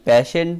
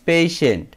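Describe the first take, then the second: First: The first vowel sounds like the 'a' in pat. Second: The first vowel sounds like the 'a' in pay. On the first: The speaker calls it wrong. "আমরা কিন্তু অনেকেই প্যাশেন্ট বলে থাকি, প্যাশেন্ট না" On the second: The speaker calls it right. "সঠিক উচ্চারণ হবে পেশেন্ট"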